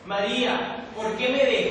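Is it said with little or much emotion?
much. It is said with much more emotion.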